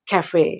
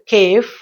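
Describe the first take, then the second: First: The word is said as two syllables. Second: The word is said as one syllable. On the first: The speaker calls it right. "it is to be pronounced as cafe" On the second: The speaker calls it wrong. "if we pronounce this word as cave, it is monosyllabic"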